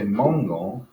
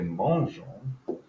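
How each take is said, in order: First: The g is pronounced as a hard g. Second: The g is pronounced as a soft zh. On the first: The speaker calls it wrong. "We don't want to say mangeons" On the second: The speaker calls it right. "We want to say mangeons"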